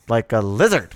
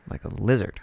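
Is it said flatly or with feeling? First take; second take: with feeling; flatly. First: It is said with strong dramatic feeling. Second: It is said flatly, without much feeling.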